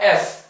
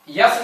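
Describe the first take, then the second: First: The letter name starts directly with a vowel. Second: The letter name starts with a y sound. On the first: The speaker calls it right. "इसको बोला जाता है एस" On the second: The speaker calls it wrong. "यस नहीं होता"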